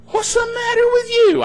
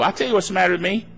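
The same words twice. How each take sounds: First: High-pitched, wailing mock disbelief; mock upset. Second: Quick, matter-of-fact comeback; unfazed retort. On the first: Worried relatives scolding the calm believer, high mock upset. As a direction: imitate an appalled critic, pitched way up. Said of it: "they get all bent out of shape". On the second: Acted. Believer answering upset critics, quick unfazed retort. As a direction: answer briskly without getting worked up.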